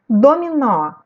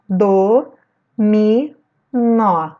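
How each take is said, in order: First: Said in the usual way. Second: "Do, mi, nó" as three separate syllables. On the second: Shown as a demonstration. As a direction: clear pause after each of "Do, mi, nó". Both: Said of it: "Vou separar as sílabas".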